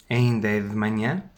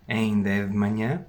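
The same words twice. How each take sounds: The two takes are said the same way.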